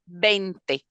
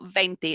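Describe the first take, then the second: First: The word begins with a B sound. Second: The word begins with a V sound. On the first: The speaker calls it right. "you pronounce it like a B" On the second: The speaker calls it wrong. "It's it's not veinte"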